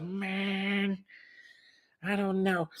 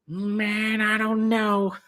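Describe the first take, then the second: First: High, drawn-out sleepy dude voice; lazy surfer drawl, pitched up; Greg impression. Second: High, drawn-out laid-back dude voice; lazy stoner drawl pitched up; Greg impression. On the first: Friend doing Greg for Barb, high and drawn out. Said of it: "Is that Greg or what?". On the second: Friend imitating buddy Greg's sleepy voice, high and drawn out. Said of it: "That's the way he sounds, man".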